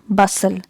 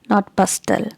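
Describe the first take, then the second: First: The T sound is silent. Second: The T sound is pronounced. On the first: The speaker calls it right. "letter T is silent here" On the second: The speaker calls it wrong.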